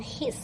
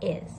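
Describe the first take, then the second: First: The word begins with an h sound. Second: The word begins without an h sound. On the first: The speaker calls it wrong. "No his" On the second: The speaker calls it right. "Just is"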